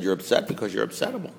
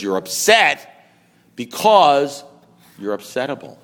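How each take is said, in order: First: Softer, run together without pauses; understated repeat. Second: Slow, with a pause before and after BECAUSE; deliberate verdict. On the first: Man repeating his sponsor's verdict after laughter, understated. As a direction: toss the verdict off quietly in one go. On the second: Sponsor finally telling him why he's upset, deliberate. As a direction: build on UPSET and BECAUSE, then drop on upsettable. Sponsor delivers the punchline slowly. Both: Retold or imitated.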